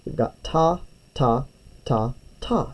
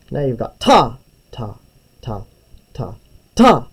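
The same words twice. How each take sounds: First: Said in the usual way. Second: Even "ta" beats, then punch the final "ta." hard; accent on the last ta. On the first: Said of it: "This is just me giving you an example". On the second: Shown as a demonstration. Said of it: "See how that one's louder?".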